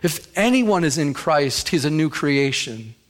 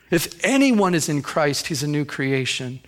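Both takes have the same delivery.

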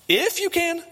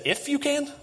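First: Stronger incredulous echo. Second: Jesus echoing the words back high and disbelieving; incredulous echo. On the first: Jesus throwing the father's words back, even more incredulous. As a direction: push "you" up in full disbelief. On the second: Jesus repeating the father's doubt back in disbelief. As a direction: pitch it up as if you can't believe the question. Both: Retold or imitated. That's Jesus' way of saying, You kidding me?.

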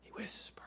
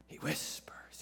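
First: Breathy unvoiced whisper. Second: Soft unvoiced whisper. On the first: Preacher whispers to the congregation, barely audible. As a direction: hush it right down to a whisper. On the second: Preacher repeats it in a whisper to the congregation. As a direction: let it fall to a hush. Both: Shown as a demonstration.

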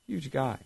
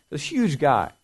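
First: "Huge guy" repeated much softer, falling; quiet echo. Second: Said in the usual way. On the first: Shown as a demonstration. Preacher echoing Goliath's size to kids, softly.

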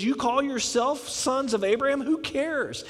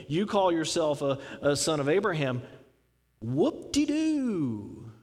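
First: Higher, pointed confrontational retort; in-your-face challenge. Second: Dismissive, sarcastic, dragging out the whoop-de-doo; mocking scorn. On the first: Retold or imitated. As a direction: throw it right back in their face. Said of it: "He also got in their face". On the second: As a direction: scoff at their pride, stretching the last words. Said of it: "That's how they would say".

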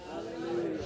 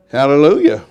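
First: Whispered praise. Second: Loud praise. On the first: Praise repeated under breath. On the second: Praise exclamation in sermon. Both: Real, not acted.

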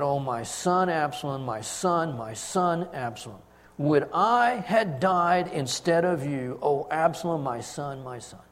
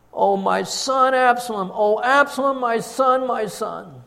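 First: Grieving lament. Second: Loud, higher anguished cry over his son. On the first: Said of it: "And he said". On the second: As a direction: wail the name aloud, rising to a peak. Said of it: "cried out with a loud voice". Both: A narrator's reading.

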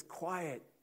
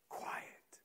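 First: Voiced, higher firm hush; higher spoken quiet. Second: A soft whispered hush; whispered quiet. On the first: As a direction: say it aloud, raised, to silence condemnation. Jesus speaks to condemnation. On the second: Acted. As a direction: whisper it to calm fear. Jesus speaks to fear of loss.

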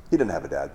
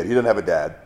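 First: Quiet, moved. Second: Said in the usual way. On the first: Retold or imitated. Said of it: "He goes". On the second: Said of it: "incredible understanding of this kid".

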